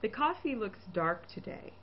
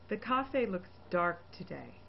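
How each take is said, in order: First: The last vowel of coffee is a clear ee. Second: The last vowel of coffee is an off vowel. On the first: The speaker calls it right. "the correct E" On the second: The speaker calls it wrong. "an erroneous E"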